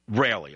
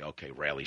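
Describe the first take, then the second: First: Said in the usual way. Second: "rarely" dropped to a near murmur, much softer; much softer aside. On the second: Shown as a demonstration. Host conceding the point to his radio audience, much softer. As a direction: tuck "Okay, rarely" away under the breath, conceding.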